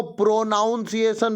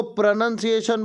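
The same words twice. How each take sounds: First: प्रोनाउंसिएशन with the mistaken "naun" sound in the middle; wrong pronunciation. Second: प्रोनंसिएशन said with a short "nun" sound and no "naun"; right pronunciation. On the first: Teacher shows students the common mistake, pro-naun-si-ay-shun. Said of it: "जो कि गलत है". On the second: Teacher shows students the correct way, pro-nun-si-ay-shun. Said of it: "जो कि सही है". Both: Shown as a demonstration.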